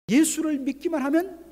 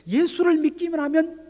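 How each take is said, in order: First: 예수를 again stressed high and loud. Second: 예수를 stressed high and loud. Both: Acted. Repeated phrase, emphatic.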